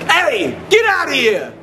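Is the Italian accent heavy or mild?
heavy. It has a heavy Italian-American accent. The speaker calls it wrong. "Too Italian"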